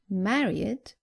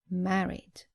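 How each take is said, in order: First: The ending is said as an extra id syllable. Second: The ending adds no extra syllable. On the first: The speaker calls it wrong. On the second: The speaker calls it right.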